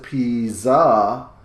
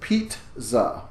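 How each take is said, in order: First: The double Z is said without a T sound. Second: A T sound comes before the double Z. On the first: The speaker calls it wrong. "we don't pronounce it pizza" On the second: The speaker calls it right. "with a T sound in there again before the second Z"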